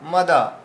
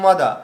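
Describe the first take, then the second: First: The first vowel is pronounced short. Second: The first vowel is pronounced short.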